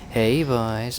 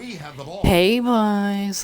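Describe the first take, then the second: First: The put-on voice is milder and less exaggerated. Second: The put-on voice is strongly exaggerated. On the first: The speaker calls it right. "but he's like" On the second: The speaker calls it wrong.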